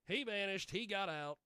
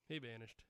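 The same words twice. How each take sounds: First: Higher, louder mock-dramatic repeat; emphatic declaiming. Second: Said in the usual way. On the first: Host on the missing guy, repeating it loud and high. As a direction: declaim it like a famous saying.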